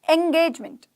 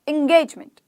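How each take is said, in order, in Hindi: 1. यह शब्द 'eh' ध्वनि से शुरू होता है। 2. यह शब्द 'eh' ध्वनि से शुरू होता है।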